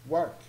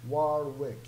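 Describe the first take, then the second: First: The middle W sound is silent. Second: The middle W sound is pronounced. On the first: The speaker calls it right. "But actually it's pronounced work. So the W here will not be pronounced" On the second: The speaker calls it wrong. "if you pronounce it like as in the classical ways"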